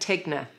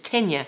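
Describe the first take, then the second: First: The g is said as a hard g. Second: The gn is said as a 'ny' sound. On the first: The speaker calls it wrong. "I was saying Tegna" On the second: The speaker calls it right. "it takes the Italian pronunciation"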